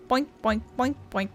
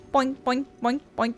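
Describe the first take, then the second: No difference in how they are said.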